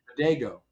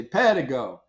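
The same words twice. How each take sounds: First: "Pedego" said pe-DAY-go, stress on the long middle DAY; European way of saying it. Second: "Pedigo" said PA-di-go, open first vowel, drawn out; Italian way of saying it. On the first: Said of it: "In other parts of Europe, they say Pedego". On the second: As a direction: say "Pedigo" as Italians do, PA-di-go, slow and firm. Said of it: "in Italy, they say Pedigo". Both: Shown as a demonstration.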